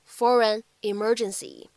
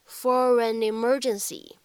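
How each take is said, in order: First: Only one pair of words is linked together. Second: Two pairs of words are linked together. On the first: "如果读一处连读的话呢，咱们可以读成是" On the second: "如果带两个连读，咱们怎么读呢？可以读成是"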